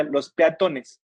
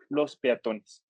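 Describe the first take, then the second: First: "peatones" with the stress pulled forward off TO; misplaced stress. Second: Said in the usual way. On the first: Shown as a demonstration. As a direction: say "peatones" wrongly, stressing the A instead of TO. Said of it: "si le ponemos acento diría". ("peatones" mal acentuado, con la fuerza en la A) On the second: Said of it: "en plural no lleva acento".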